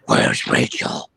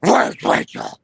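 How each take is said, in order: First: Slow, whispered Batman growl. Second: Much higher, louder yell; shouted Batman line. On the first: Batman movie line quoted. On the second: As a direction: scream the question desperately. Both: Pretend.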